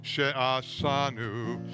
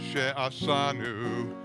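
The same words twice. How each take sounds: The two takes are said the same way.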